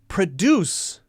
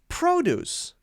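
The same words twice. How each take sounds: First: The stress is on the second syllable. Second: The stress is on the first syllable. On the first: It is a verb. "If it's a verb, it's usually going to stress the second syllable" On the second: It is a noun or adjective. "If it's a noun or an adjective, then we'll stress the other syllable, the first syllable"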